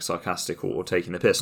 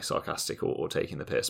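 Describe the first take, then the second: First: Said in the usual way. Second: Whispering it as a guilty admission; whispered aside. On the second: Shown as a demonstration. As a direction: drop to a whispered confession. Same words, then a confessional aside.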